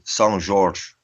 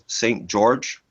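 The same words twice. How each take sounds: First: The name is said with Portuguese sounds. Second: The name is said with English sounds.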